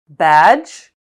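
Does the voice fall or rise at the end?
rise. The pitch rises at the end.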